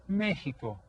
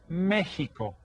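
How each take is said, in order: The two takes are said the same way.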